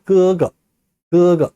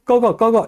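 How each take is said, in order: First: 그거 with first syllable drawn out, second short; correct Chinese gege. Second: 꺼거 quick, high, with open Korean vowel; wrong Korean-style gege. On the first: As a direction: say 그거 from the tongue root, long then light. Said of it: "이렇게 얘기합니다". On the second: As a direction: rush 꺼거 as plain Korean syllables. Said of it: "이렇게 하지 마세요". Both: Shown as a demonstration.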